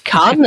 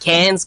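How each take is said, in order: First: It is said with a French-style pronunciation. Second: It is said with an English-style pronunciation. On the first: The speaker calls it right. "but it's Cannes" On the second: The speaker calls it wrong. "I'm going to go annoy a lot of French people by going and saying Cannes"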